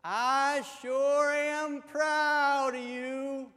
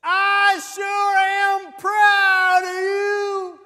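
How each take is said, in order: First: Raised voice, drawn out slowly; higher, louder, stretched-out words; louder loving repeat. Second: Very slow, high, full-volume holler; hammed-up exasperated yelling, words stretched out; frustrated shout. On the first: Acted. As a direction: say it slow and loud for a deaf husband. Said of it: "lovingly leans in a little closer". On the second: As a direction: bellow every word at a deaf husband. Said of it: "she's getting a little frustrated".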